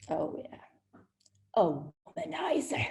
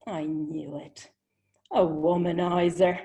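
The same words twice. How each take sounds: First: Whispered, knowing scoff; sarcastic aside. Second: Knowing verdict. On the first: She eyes the smiling Englishman, whispering a scoff. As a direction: dismiss him under your breath. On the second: She decides the charming Englishman is a womanizer, knowingly. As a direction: drop it like a confirmed suspicion. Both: Retold or imitated.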